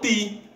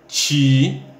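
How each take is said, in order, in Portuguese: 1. O t é uma oclusiva dental simples. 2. O t é feito com um chiado parecido com ch. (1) "Lá eles falam ti" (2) "aqui na nossa região, a gente aprende tá, té, ti"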